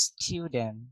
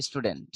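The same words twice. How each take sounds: First: স্টুডেন্ট drawn out as "styu-den", final t dropped; slow British "s-chyu-den" for স্টুডেন্ট; British pronunciation. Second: Said in the usual way. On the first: Shown as a demonstration. Teacher showing how the British say it, slow "styu-den". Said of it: "ব্রিটিশরা বলে". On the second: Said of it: "আমরা বলি স্টুডেন্ট".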